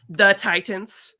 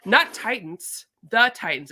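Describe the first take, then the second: First: Slow, over-clear, rising at the end; patient slowed-down clarification to a store clerk; slow emphatic repeat. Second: Very slow and drawn out, falling at the end; drawn-out exasperated repeat to a confused clerk. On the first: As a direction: spell it out for someone who didn't hear, slowly. Spelling it out for clerk. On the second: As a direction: stretch every syllable, exasperated. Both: Retold or imitated.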